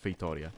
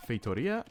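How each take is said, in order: First: Feitoria with a different stress, ending flat; second stress option. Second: Feitoria with a rising, questioning tune; first stress option. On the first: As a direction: offer Feitoria as the alternative stress. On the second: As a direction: say Feitoria, lifting the pitch at the end. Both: Shown as a demonstration. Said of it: "where's the stress in the word".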